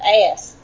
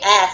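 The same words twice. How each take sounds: First: The vowel is drawn out with a glide. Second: The vowel is short and plain. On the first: "instead of ass" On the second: "I have to strain to say ass"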